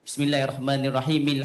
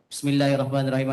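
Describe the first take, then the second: First: It is smooth with every letter clearly articulated. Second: It is rushed with the letters slurred together. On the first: The speaker calls it right. "selarikan bacaan tersebut dengan betul, jangan adakan saktah, kita wasal" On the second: The speaker calls it wrong. "contohnya begitulah, tak butir"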